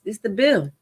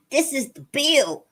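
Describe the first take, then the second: First: Said in the usual way. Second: Higher, slower emphatic repeat; alarmed disbelief. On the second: Real, not acted. Host realizing the real bill is here, alarmed disbelief. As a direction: say it higher and drawn out, aghast.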